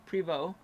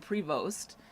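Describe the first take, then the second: First: The word ends on an open vowel. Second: The word ends with a t sound. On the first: This is how someone else says it. "you say that word as Prevo" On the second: This is how the speaker's own group says it. "we say Prevost"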